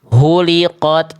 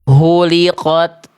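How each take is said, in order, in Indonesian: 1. Dimulai dengan bunyi h yang kuat dan serak. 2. Dimulai dengan bunyi h yang kuat dan serak.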